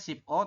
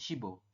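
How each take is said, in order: First: The syllables are said apart, with a clipped p. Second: The final consonant links onto the next vowel. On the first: The speaker calls it wrong. "Tulisannya ship O" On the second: The speaker calls it right. "tapi dibacanya shibo"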